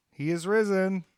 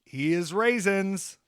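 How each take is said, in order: First: Said in the usual way. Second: He is raisins with raisins said as RAY-zins; slow, punning raisins for risen; deliberate pun saying raisins. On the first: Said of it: "He is raisins". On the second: Shown as a demonstration.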